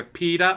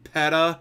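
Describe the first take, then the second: First: "peta" with a long ee, PEE-tuh; first pronunciation. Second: "peta" with a short e, PET-uh; alternative pronunciation. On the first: Streamer weighs two ways to say a name, "peta" as PEE-tuh. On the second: Streamer weighs two ways to say a name, "peta" as PET-uh. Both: Shown as a demonstration. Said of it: "it's either peta or peta".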